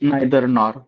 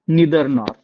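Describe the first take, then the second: First: The first vowel sounds like 'eye'. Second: The first vowel sounds like 'ee'. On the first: This is the everyday rural way of saying it. The speaker calls it wrong. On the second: This is the correct way of saying it. The speaker calls it right.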